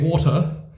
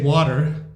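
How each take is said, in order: First: It is said in a British accent. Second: It is said in an American accent. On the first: "the British say water" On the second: "the Americans say water"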